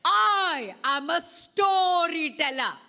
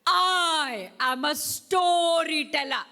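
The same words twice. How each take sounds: First: Louder and higher, slow and grand; proud storyteller voice. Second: Louder, higher, slow with a laugh; grand slow announcement with a laugh; proud storyteller voice. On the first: Teacher leading the class call, grand and slow. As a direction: announce yourself grandly and slowly. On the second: Teacher repeating the class call, grand and laughing. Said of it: "Let's do it again". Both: Shown as a demonstration.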